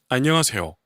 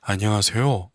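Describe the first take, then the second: First: It is said with strong accents and emphasis. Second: It is said plainly, without extra emphasis. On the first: "이런 악센트로 사용하면서 변화를 시킵니다" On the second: "일 절에서는 안녕하세요. 이렇게 가고"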